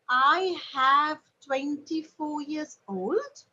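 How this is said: The voice rises at the end. It questions whether this sounds right.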